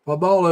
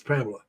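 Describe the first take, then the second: First: Pamela said as puh-MAH-la; Evie's pronunciation. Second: Pamela said as PAM-la; American pronunciation. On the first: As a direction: stress the open "ah" middle of Pamela. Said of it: "is the way Evie, Evie pronounces it". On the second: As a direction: stress the first syllable of Pamela, middle swallowed. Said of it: "all the women I know that spell their name that way here in the States". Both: Shown as a demonstration.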